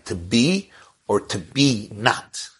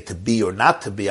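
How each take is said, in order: First: Slow, with "to be not" drawn out and leaned on; slow, deliberate "to be not"; stress on "be not". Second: Said in the usual way. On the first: Shown as a demonstration. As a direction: land hard on the twist "be not". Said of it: "I was saying". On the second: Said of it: "Instead of saying".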